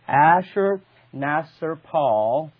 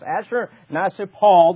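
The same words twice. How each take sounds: First: The name is said slowly and carefully. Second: The name is said quickly in one go. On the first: "wish I could say it faster" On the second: "Say it very quickly"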